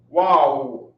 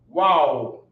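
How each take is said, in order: First: The syllables merge into one single syllable. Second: The syllables merge into one single syllable.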